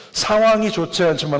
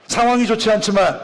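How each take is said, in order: First: Said in the usual way. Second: Higher-pitched, forceful preaching call; emphatic proclamation. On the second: Real, not acted. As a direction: proclaim it to the congregation, pitch lifted. Title proclaimed after asking congregation. (높은 음으로 힘주어 선포)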